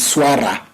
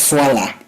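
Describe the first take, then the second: First: The middle consonant is an R sound. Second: The middle consonant is an L sound. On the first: This is the standard pronunciation. "the formal one that you use common in the Swahili standardized is swara with an R" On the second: This is a regional dialect pronunciation. "there's a dialect that pronounce it as swala"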